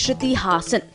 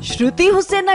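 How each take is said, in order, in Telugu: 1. ఇంటిపేరు 'Haasan' లా పలుకుతారు. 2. ఇంటిపేరు 'Hussain' లా పలుకుతారు. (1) "my name is Shruti హాసన్, please అలాగే పిలవండి" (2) "శృతి హుస్సేన్ అంట. నవ్వాలో ఏడవాలో అర్థం కావడం లేదు"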